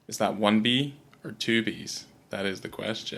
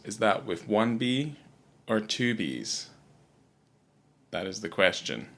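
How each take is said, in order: First: It is said at a fast pace. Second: It is said at a slower pace.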